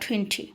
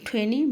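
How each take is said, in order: First: The t after the n is pronounced. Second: The t after the n is dropped. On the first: "দুভাবে বলতে পারবো" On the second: "দুভাবে বলতে পারবো"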